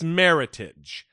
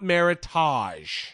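First: The ending sounds like the end of heritage. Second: The ending has a fancy 'tahj' sound. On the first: The speaker calls it right. "So it's meritage, ... It's meritorious heritage" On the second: The speaker calls it wrong. "not meritage. There's no ta"

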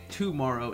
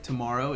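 First: The stress falls in an unusual place. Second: The stress falls in the usual place. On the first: The speaker calls it wrong. "tomorrow is not, like that's not standard English" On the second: The speaker calls it right. "tomorrow is the correct way"

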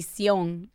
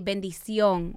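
First: Only the last syllable of the word is said. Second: The word is said in full, four syllables. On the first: "We just say sión. Like, we chop it in half" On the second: "you always say bendición"

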